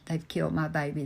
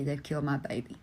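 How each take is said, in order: First: Said in the usual way. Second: Softer, sinking into quiet heartbreak; quiet grief. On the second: Retold or imitated. A bereaved father quietly repeating his grief, hushed. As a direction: let the repeat fall away, broken.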